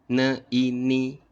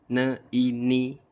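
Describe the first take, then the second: Both takes have the same delivery.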